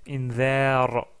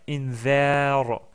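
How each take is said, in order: The two takes are said the same way.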